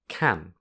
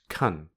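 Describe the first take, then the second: First: The word has a full, clear vowel. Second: The word has a weak, reduced vowel. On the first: The word is said on its own. "which has the full vowel a when spoken on its own" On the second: The word is spoken within a sentence. "it becomes the weak form, which has a reduced vowel"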